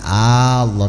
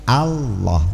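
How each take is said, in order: First: The opening vowel is drawn out long. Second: The opening vowel is short and clipped. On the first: It turns the word into a question. The speaker calls it wrong. "Bukan Allah ... Kalau Allah itu artinya hamzahnya dua" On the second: It is a proclamation, not a question. The speaker calls it right. "tapi Allah"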